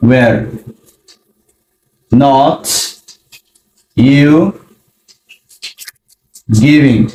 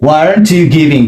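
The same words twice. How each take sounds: First: Long pauses between single words; slow word by word. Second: Said in the usual way. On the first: Shown as a demonstration. Teacher showing the parts of the question, word by word. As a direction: place each word deliberately. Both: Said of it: "was এর use করব".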